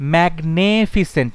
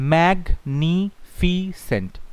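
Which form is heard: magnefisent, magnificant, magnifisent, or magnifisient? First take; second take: magnefisent; magnifisent. First: The second syllable has an 'e' vowel: magne-. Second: The ending is a plain 's' sound: -fisent. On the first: The speaker calls it wrong. "ম্যাগনেফিসেন্ট নয়" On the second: The speaker calls it right. "কত হচ্ছে ম্যাগনিফিসেন্ট"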